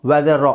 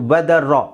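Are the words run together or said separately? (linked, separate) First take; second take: linked; linked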